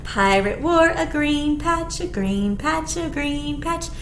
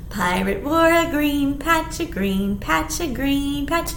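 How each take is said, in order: Both takes have the same delivery.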